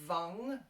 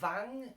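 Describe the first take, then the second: First: The vowel sounds like a U. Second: The vowel sounds like an A. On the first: "not vang as with a U" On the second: "or vang as with an A"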